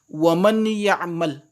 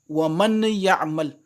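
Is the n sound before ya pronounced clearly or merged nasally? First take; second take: clear; clear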